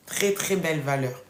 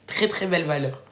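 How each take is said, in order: Both takes have the same delivery.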